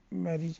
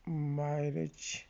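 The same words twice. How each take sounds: First: Said in the usual way. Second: میرج drawn out very slowly, ending in a clear j; slow model word. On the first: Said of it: "یعنی شادی کے بارے میں". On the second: Shown as a demonstration. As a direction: stretch میرج syllable by syllable.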